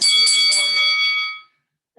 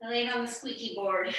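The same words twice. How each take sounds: First: High, slow, squeaking like a board; squeaky voice. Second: Said in the usual way. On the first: Shown as a demonstration. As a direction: make the words creak like a floorboard.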